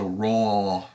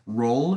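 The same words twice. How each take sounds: First: The R is said with the tongue like an L. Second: The R is said the usual English way. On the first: The speaker calls it right. "you're supposed to move your tongue like you're going to say an L" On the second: The speaker calls it wrong. "instead of touching the roof of your mouth when you say an R"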